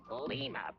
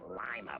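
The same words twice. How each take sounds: First: The first syllable sounds like 'lee'. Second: The first syllable sounds like 'lie'. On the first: The speaker calls it right. "It's Lima, Peru" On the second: The speaker calls it wrong. "not Lima, Peru"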